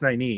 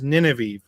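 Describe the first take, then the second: First: The name does not sound like Nineveh. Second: The name sounds like the city Nineveh. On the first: This is the accepted pronunciation. The speaker calls it right. "it's now obviously it's Nynaeve" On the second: This is how the reader first imagined it. The speaker calls it wrong. "it was Nineveh in my head"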